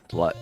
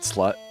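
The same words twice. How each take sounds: First: It is said in a flat, serious tone. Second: It is said in a playful, teasing tone. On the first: The insult is meant. "not joking" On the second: The insult is not meant.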